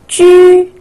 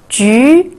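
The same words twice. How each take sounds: First: The pitch stays high and level. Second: The pitch rises from mid to high.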